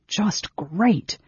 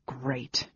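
First: Sour, bitter aloud; sarcastic mutter. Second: Breathy whispered aside, almost silent; muttered whisper. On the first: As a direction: spit out the sarcasm a bit higher. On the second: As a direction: mutter it under the breath in disgust. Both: A narrator's reading. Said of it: "Tanis muttered".

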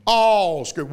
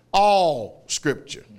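First: "All scripture" with a louder punch on "All"; stressed repeat. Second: "All scripture" drawn out slowly, each word weighed; slow emphasis. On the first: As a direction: hit "All" hard in "All scripture". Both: Shown as a demonstration.

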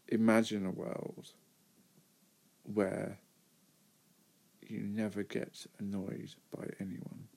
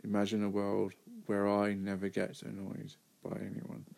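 First: "never" stressed with a rising pitch. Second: "I" stressed, ending without a rise. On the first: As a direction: lean on "never", and the line ends rising. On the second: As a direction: hit "I", keep "never" unstressed. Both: Real, not acted. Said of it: "This is what I asked myself".

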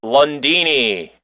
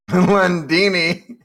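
First: Lundini stretched slowly, savoured; drawn-out name. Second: Lundini repeated slowly with a laugh; laughing echo. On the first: Shown as a demonstration. Presenting the troll's name, slow and relished. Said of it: "The name is the best part". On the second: Real, not acted. A co-host repeating the name, laughing.

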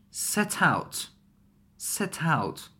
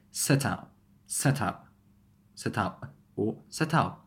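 First: Said in the usual way. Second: "set out" as set-ou', final T unreleased; last T glottalized. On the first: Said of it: "Which one would glottalize?". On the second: Shown as a demonstration. Teacher showing the better choice, final glottal T in "set out". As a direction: cut the end of "set out" off in the throat. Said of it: "the last one is better".

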